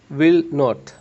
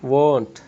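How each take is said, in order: First: Both words are said in full, separately. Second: The words are joined into one short syllable.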